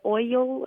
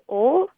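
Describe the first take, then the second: First: The word is said with an 'oi' vowel. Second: The word is said with a plain 'o' vowel. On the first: This is how the caller's father says it. "he says like "oil"" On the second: This is how the caller says it. "I say "ol""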